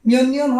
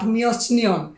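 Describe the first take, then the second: First: The first syllable ends in an n sound. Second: The first syllable ends in a t sound. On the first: The speaker calls it right. "মিয়নিয়ন হবে" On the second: The speaker calls it wrong. "Not মিয়চনিয়ন"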